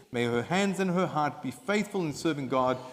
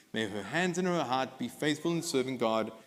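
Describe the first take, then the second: No difference in how they are said.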